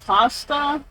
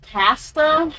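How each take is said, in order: First: It is said the American way. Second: It is said the British way. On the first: "not pasta" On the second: "they say like pasta"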